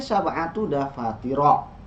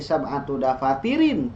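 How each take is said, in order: First: The last word ends with an 'a' sound. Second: The last word ends with an 'in' sound. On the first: The speaker calls it right. "Tapi sab'atu dafatiro" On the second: The speaker calls it wrong. "bukan indi sab'atu dafatirin, tidak"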